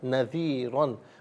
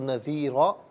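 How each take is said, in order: First: The word ends with an an sound. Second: The word ends with a long a vowel. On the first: The reading continues without a stop. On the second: The reader stops at this word.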